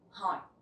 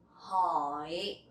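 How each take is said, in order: First: The word is said quickly. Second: The word is said slowly and carefully.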